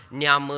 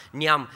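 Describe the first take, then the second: No difference in how they are said.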